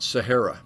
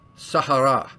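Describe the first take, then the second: First: It is said the usual American English way. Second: It is said the local, non-American way. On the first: The speaker calls it wrong. "not Sahara like we pronounce it" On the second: The speaker calls it right. "which I learned is actually uh, pronounced Sahara"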